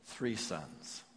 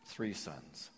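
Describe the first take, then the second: First: Said in the usual way. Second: Echoed much softer and lower; hushed repetition. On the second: Real, not acted. Preacher repeating the loss to the congregation, hushed and lower. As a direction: let the words sink, quiet and heavy.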